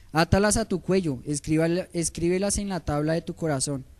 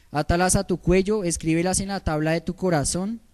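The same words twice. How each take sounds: Both takes have the same delivery.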